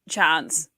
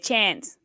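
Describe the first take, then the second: First: It is said in a New Zealand accent. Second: It is said in an American accent. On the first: This is how the speaker's own group says it. "Dean and I have it exactly the same way" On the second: This is how the other people present say it. "but the rest of you say chance"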